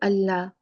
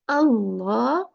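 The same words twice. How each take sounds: First: The L sound is thin and light. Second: The L sound is thick and heavy. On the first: The speaker calls it wrong. "We never say Allah" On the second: The speaker calls it right. "Allah is the right pronunciation when we recite the Quran"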